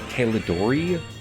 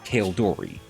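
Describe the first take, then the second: First: An extra vowel is heard between L and D. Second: No vowel is heard between L and D. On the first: The speaker calls it wrong. "they added an extra vowel between the letters L and D" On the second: The speaker calls it right. "it just looks like it's pronounced as Kaldori"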